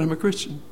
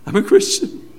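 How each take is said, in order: First: Said in the usual way. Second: Overjoyed. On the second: Retold or imitated. Convert repeating joyful confession.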